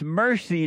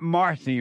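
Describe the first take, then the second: First: Mercy with an er sound, like the word mercy; Mercy spoken like the word mercy. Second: Marcy with an ar sound, like the name Marcy; Marcy with the open ar vowel. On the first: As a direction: say Mercy as MER-see, not MAR-see. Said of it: "not Marcy, right?". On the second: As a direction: say Marcy as MAR-see, the wrong name. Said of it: "it's Mercy, not Marcy". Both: Shown as a demonstration.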